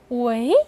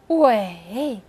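First: The pitch rises from mid to high. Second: The pitch dips low and then rises. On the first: "第二个是围" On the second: "第三个是围"

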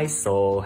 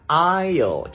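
First: The s is pronounced in the word. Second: The s is silent in the word. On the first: The speaker calls it wrong. "chứ không phải là isle" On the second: The speaker calls it right. "mình đọc là aisle"

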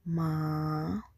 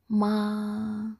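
First: The pitch falls and then rises. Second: The pitch stays high and level. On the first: "The second tone is the falling rising tone" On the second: "The first tone is very high level"

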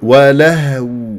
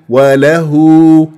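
First: The h is voiceless-stopped with no vowel after it. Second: The h is followed by a short u vowel. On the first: The speaker calls it right. "راح أقول ولهو" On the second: The speaker calls it wrong. "وما أقول وله وله"

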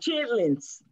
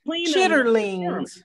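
First: The word is said shortened, with fewer syllables. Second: The word is said in full, as spelled. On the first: This is the everyday name people use. "we call them chitlins" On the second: This is the formal, spelled-out name. "So that's how it's spelled. We have to say it right"

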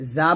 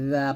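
First: The letter is pronounced heavy and thick. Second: The letter is pronounced light and thin. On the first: The speaker calls it wrong. "জা বলবেন না" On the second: The speaker calls it right. "জা পাতলা করে"

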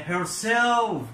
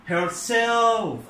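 Both takes have the same delivery.

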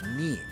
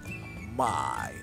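First: The vowel sounds like 'ee'. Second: The vowel sounds like 'ai'. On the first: The speaker calls it wrong. "la M-I no es me" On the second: The speaker calls it right. "es my"

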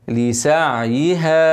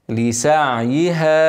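Both takes have the same delivery.

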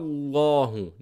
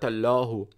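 First: The L sound is heavy and deep. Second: The L sound is light and thin. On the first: The speaker calls it right. "the only word in which I pronounce the lam very heavy is the word of Allah" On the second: The speaker calls it wrong. "not allahu"

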